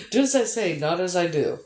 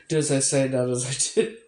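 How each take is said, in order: First: Laughing. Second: Said in the usual way. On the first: Real, not acted. Streamer to a viewer with back pain, laughing. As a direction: giggle at your own hypocrisy.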